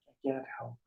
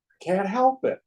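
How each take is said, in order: First: Much softer, resigned echo; quiet helpless admission. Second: Higher-pitched plea of helplessness; helpless protest. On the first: Seeker repeats his confession to himself, quiet and helpless. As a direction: let it sink to a quiet admission. Same protest repeated, dropping away. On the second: Seeker admits he cannot let go, helpless protest. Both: Acted.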